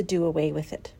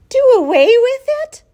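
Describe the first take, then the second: First: Said in the usual way. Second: Horrified high, loud shriek. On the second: A narrator's reading. Daughter to mother on hearing the runt's fate, shrieked. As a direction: shriek it in disbelief. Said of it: "shrieked Fern".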